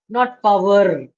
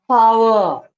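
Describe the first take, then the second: First: The R at the end is strong and clear. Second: The R at the end is soft and rounded. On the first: The speaker calls it wrong. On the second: The speaker calls it right. "You don't have to make the R very clear"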